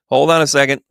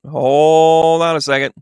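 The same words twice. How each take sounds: First: Said in the usual way. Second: "Hold on a second" drawn out slowly with a long "hold"; slow stretched hold on. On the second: Real, not acted. Psychic stalling the chat while drawing a card, slow "Hold on a second".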